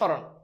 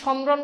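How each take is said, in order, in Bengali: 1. 'm' লোপ পায়, সামান্য নাসিকীভবন থাকে। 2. 's'-এর পরে পূর্ণ 'm' ধ্বনি উচ্চারিত হয়। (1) "মফালার উচ্চারণ হয় না, সামান্য নাসিক্য হয়" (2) "তুমি কি সম্রণ বলো? সম্রণ না"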